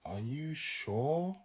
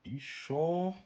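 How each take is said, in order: First: Very slow, higher, rising doubt; slow, deliberate sarcastic question; drawn-out sarcasm. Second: Higher, rising, teasing doubt; quick skeptical jab; mock-doubtful check; sarcastic question. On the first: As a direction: stretch every word out skeptically. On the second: Sarcastic follow-up. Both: Real, not acted.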